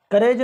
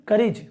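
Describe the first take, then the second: First: करेज with long "ay", like "ka-rayj"; wrong vowel demo. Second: करीज with an i sound, "ka-rij"; correct vowel demo. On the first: Teacher drilling the mistake to avoid, mispronounced. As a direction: push the e in करेज. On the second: Teacher drilling the right reading, carefully pronounced. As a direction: model करीज with i, falling. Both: Shown as a demonstration. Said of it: "करेज नहीं".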